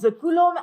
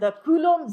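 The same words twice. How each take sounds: First: It is said in a put-on French accent. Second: It is said in a plain English accent.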